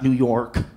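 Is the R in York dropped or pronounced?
pronounced. The R in York is clearly pronounced. The speaker calls it wrong. "It's not New York"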